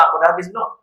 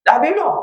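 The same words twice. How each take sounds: First: Said in the usual way. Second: Pitched much higher, rising at the end; the same question pushed up high; higher repeated question. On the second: Acted. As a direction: ask again, up high and pointed. Nabi Isa asks the mocker again.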